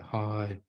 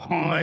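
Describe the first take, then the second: First: The greeting sounds heavy and despairing. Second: The greeting sounds sharp and angry. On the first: The person feels hopeless. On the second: The person feels angry.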